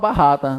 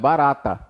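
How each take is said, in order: First: The middle R is a strong throaty sound. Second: The middle R is a light single tap. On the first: The speaker calls it wrong. "ninguém fala barrata" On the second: The speaker calls it right. "é barata, porque é um R só"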